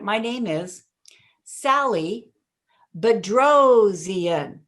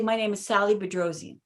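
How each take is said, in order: First: The surname is punched with strong emphasis. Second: The surname is said flatly without extra punch. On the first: The listener remembers and repeats the name. The speaker calls it right. "I would hit the Bedrosian because in punching something" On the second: The listener does not catch the name. The speaker calls it wrong. "it's like, what? Didn't get it"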